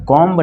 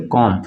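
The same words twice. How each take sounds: First: "कॉम्ब" with an audible final b; wrongly sounded b. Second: "कॉम" ending on m, no b; silent b. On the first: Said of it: "नहीं पढ़ेंगे हम". ("कॉम्ब" के अंत में ब का उच्चारण) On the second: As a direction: say "कॉम" with the final b left silent. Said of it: "बी silent हो जाएगा". ("कॉम" में बी साइलेंट, म पर खत्म) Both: Shown as a demonstration.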